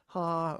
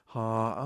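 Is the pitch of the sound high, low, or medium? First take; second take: high; medium. First: The sound is pitched high. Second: The sound is pitched in the middle. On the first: The speaker calls it wrong. "too high" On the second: The speaker calls it right. "that's just right"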